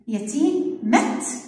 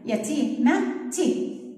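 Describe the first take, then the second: First: The final t has no vowel after it. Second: The final t is followed by an i vowel. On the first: "الإت اللي عليها السكون" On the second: "حطيت لها الكسرة"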